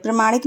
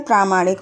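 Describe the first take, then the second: First: प्रमाणिक said with a short first a, pra-ma-nik; wrong spelling read out. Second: प्रामाणिक said with a long first aa, praa-maa-nik; correct spelling said. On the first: Teacher reads out the misspelt word प्रमाणिक, short pra. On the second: Teacher gives the correct form प्रामाणिक, long praa. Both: Shown as a demonstration. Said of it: "प्रमाणिक नहीं होता है".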